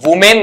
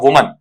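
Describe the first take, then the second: First: The second syllable has a full 'men' vowel. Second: The second syllable has a short, weak 'mun' vowel. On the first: The speaker calls it wrong. "वुमेन नहीं" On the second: The speaker calls it right. "इसे पढ़ा जाता है आपका वुमन"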